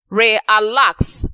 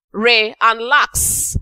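First: Said in the usual way. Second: Slow, each syllable set apart; syllables split apart. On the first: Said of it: "made up of two syllables". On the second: Shown as a demonstration. Teacher splitting relax into re and lax slowly. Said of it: "made up of two syllables, re and lax".

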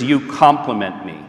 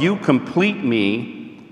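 First: Said in the usual way. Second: Slowly drawn-out quote of you complete me. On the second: Shown as a demonstration. Speaker contrasting movie line for couples, slow. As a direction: stretch out "you complete me" word by word.

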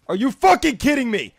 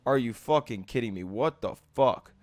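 First: Quick, incredulous raised voice; angry outburst. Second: Quiet, low, fast exasperation; low seething. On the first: Player mad at another's move, angry outburst. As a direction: fire it out fast in outrage. Outburst, later repeated low. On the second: Player mad at another's move, low seething. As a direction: drop it low and soft, fed up. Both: Real, not acted.

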